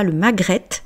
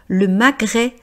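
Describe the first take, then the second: First: The word ends with a pronounced T sound. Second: The word ends in a vowel, T silent. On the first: The speaker calls it wrong. "et non pas le magrette" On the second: The speaker calls it right. "donc E T fait le son E"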